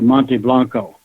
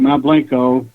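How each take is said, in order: First: The name is said with a Spanish pronunciation. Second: The name is said with an English pronunciation. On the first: This is the proper Spanish form. "if you're really doing Spanish" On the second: This is how the locals say it. "We pronounce it Mount Blanco"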